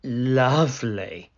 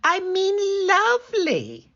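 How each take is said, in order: First: A hint of a snarl; snarling wolf. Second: Very high, louder squeaky lovely; wolf squeaking to hide his voice. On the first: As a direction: let the wolf slip out. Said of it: "snarled the wolf". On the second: Acted. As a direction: cover it with a squeak. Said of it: "he added in a squeak".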